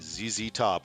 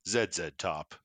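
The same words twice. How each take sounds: First: The letter Z is said as 'zee'. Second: The letter Z is said as 'zed'.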